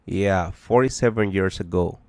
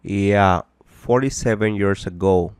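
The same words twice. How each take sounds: The two takes are said the same way.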